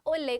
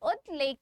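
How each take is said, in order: First: The t sound merges into a double l. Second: The t sound is kept before the l. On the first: The parts are joined into one word. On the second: The word is split into its parts.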